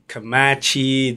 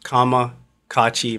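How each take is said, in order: First: The name is said with three syllables. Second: The name is said with four syllables. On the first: The speaker calls it wrong. "a lot of times people say Kamazi, Kamachi" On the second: The speaker calls it right. "It's pronounced Kamakachi"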